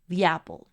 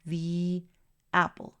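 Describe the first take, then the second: First: The two words are joined without a break. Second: There is a break after the first word. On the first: The speaker calls it right. "Una los dos sonidos para que concretes la idea" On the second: The speaker calls it wrong. "No quiero que pares en el sonido del artículo"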